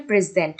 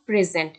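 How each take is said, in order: First: Adjective প্রেজেন্ট, "PRE" stressed, falling after it; প্রেজেন্ট with the front syllable pushed forward; stress on first syllable. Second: Verb প্রেজেন্ট with weight on "ZENT"; প্রেজেন্ট, second syllable stressed; stress on last syllable. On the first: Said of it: "প্রেজেন্টের ফার্স্টে stress বসবে". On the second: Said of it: "সেন্টের উপর স্ট্রেসটা হবে". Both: Shown as a demonstration.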